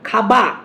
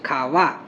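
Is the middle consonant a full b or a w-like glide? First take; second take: full b; w glide. First: The middle consonant is a full lip b. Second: The middle consonant is a soft w-like glide. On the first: "ওষ্ঠধ্বনি উচ্চারণ না হয়ে" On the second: "দন্তষ্ঠের মতো উচ্চারণ হচ্ছে, খাওয়া এইভাবে"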